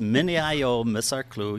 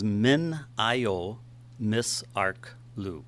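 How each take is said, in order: First: The name is said quickly. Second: The name is said at a slower pace.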